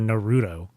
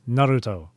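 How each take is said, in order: First: It is said with an American English accent. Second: It is said with a Japanese pronunciation. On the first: The speaker calls it wrong. "I don't want to be N A about it" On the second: The speaker calls it right. "no, it's Naruto, not not some Timu version of burrito"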